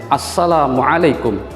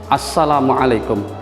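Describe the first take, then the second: No difference in how they are said.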